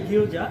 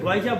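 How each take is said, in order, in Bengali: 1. শব্দটি 'gyo' ধ্বনি দিয়ে শুরু। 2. শব্দটি 'goy' ধ্বনি দিয়ে শুরু। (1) "শুদ্ধ ভাষায় গিয়োজা" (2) "গয়জা বলে ওরা"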